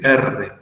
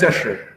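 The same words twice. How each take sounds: First: The R has the standard schooled sound. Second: The R has the regional, assibilated sound. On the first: This is the way school demanded. The speaker calls it right. "tenés que decir R" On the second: This is the local way teachers forbade. The speaker calls it wrong. "no digas R"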